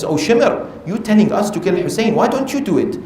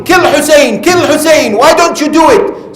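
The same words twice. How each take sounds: First: Softer, questioning challenge; challenging retort. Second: High, loud battlefield shout. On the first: Soldier answering Shimr's order, challenging him. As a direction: throw the order back at him without shouting. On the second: Shimr urging soldiers to kill Hussein, shouting. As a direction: urge them on in a raised, high-pitched shout. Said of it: "he started shouting". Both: Retold or imitated.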